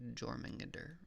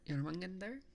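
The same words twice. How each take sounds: First: The name begins with a J sound. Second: The name begins with a Y sound. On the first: The speaker calls it wrong. "It's not Jormungandr" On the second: The speaker calls it right. "the J is like a your sound"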